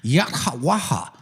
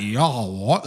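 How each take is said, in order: First: "Yahawaha" crisp as yat-ha-wa-ha; "Yahawaha" in four clear syllables, yat-ha-wa-ha; native pronunciation. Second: "Yahawa" slurred together as yaa-ha-wa, no t; imitated foreign "Yahawa", without the t or final ha; foreigners' pronunciation. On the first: Shown as a demonstration. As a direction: say "Yahawaha" with the t and airy ha sounded. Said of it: "not hard for us to pronounce". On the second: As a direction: mimic an outsider blurring "Yahawa" into one run. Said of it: "For other people".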